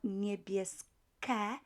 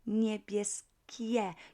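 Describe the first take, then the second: First: The ending is a plain 'ke' without the 'i'. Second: The ending is 'kie' with the 'i' sound kept. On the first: The speaker calls it wrong. "not niebieske" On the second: The speaker calls it right. "but niebieskie. You would keep this I letter there"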